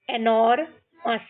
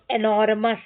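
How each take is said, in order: First: एनोरमस split into एनोर, मस; syllable by syllable. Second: Said in the usual way. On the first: Shown as a demonstration. Teacher shows how we will read, एनोरमस in two parts. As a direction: pause before the मस of एनोरमस. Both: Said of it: "इस तरीके से हमको ये सारे पढ़ने हैं".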